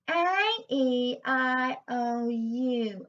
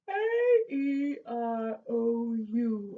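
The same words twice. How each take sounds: First: The vowels sound spread and bright, like grinning. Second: The vowels sound round, open and spacious. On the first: "give me a big cheesy grin" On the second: "you can hear that's a lovely rounded sound"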